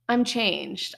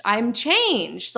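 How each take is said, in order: First: Said in the usual way. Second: CHANGED pitched up and louder, then falling; emphatic repeat. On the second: Real, not acted.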